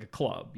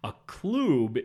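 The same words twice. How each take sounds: First: Said in the usual way. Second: "club" with a long oo, said with emphasis; loud, stressed "kloob" for "club". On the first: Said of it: "a discotheque is, like, a club". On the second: Shown as a demonstration. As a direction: say "club" to rhyme with tube. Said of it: "like, a club".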